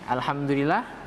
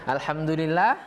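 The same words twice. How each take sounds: The two takes are said the same way.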